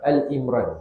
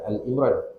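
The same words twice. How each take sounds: First: The first word is said as Ali. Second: The first word is said as Al. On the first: The speaker calls it right. "Surah Ali Imran ni disebut surah Ali Imran" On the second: The speaker calls it wrong. "bukan disebut surah Al"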